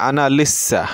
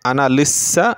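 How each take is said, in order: No difference in how they are said.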